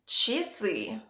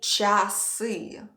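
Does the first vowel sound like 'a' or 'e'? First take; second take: e; a. First: The first vowel sounds like 'e'. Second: The first vowel sounds like 'a'. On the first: The speaker calls it right. "The only correct pronunciation of this word is часы" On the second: The speaker calls it wrong. "it's spelled with a, but we don't say часы"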